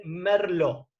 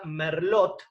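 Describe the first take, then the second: First: Merlot said slowly as "mer-LO"; French-style "Merlot", ending on an open O; silent final T. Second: Merlot with the final T pronounced; final T sounded. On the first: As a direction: drop the T at the end of "Merlot". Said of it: "la T final no se pronuncia". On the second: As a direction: say "Merlot" as spelt, ending on a T. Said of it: "que termina con T final". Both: Shown as a demonstration.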